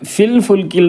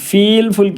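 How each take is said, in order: First: The vowel in the first word is short. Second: The vowel in the first word is long. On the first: The speaker calls it right. "ഇവിടെ പ്രത്യേകം ശ്രദ്ധിക്കുക, ഫിൽ ഫുൽക്കിൽ എന്നാണ്" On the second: The speaker calls it wrong. "ആദ്യത്തെ ഫായിനെ നീട്ടാൻ സാധ്യതയുണ്ട്"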